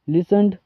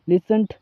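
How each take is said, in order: First: The word ends with a d sound. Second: The word ends with a t sound.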